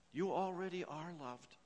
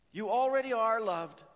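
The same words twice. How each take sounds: First: Said in the usual way. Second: Higher and louder, pressing on already; loud emphatic preaching. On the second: Shown as a demonstration. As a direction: proclaim it to the whole room. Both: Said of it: "repeated for emphasis".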